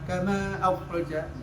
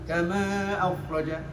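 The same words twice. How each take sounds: No difference in how they are said.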